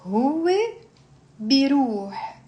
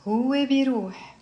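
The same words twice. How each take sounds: First: Pronoun, long pause, then verb; slow conjugation drill. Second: Both words joined in one phrase; faster drill. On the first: Teacher leading students through a verb, slowly. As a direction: space the two words widely apart. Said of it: "you slowly build up". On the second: Teacher drilling without explanation, quicker pace. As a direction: run pronoun and verb together. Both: Shown as a demonstration.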